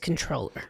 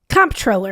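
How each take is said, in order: First: The P sound is silent in the word. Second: The P sound is pronounced in the word. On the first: It is said the official way. The speaker calls it right. "the actual pronunciation is controller" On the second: It is said the way it is spelled. The speaker calls it wrong. "it should just be comptroller if that's what it looks like"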